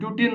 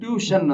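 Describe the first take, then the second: First: The middle consonant is a plain t sound. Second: The middle consonant is an sh sound. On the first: It follows the spelling letter by letter. The speaker calls it wrong. "ಕರೆಕ್ಟಾಗಿ ಓದಿದ್ರೆ" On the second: It is how the word is actually said. The speaker calls it right. "ಆದ್ರೆ ಅದು ಟ್ಯೂಷನ್ ಅಂತ"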